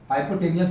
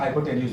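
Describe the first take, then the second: First: The word ends with a 'nee-us' sound. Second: The word ends with a 'nyooz' sound. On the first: The speaker calls it wrong. "हाइपोटेनियस नहीं होता" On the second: The speaker calls it right. "हाइपोटेन्यूज होता है"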